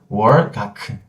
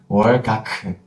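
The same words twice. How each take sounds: No difference in how they are said.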